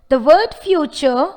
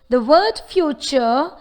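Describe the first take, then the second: No difference in how they are said.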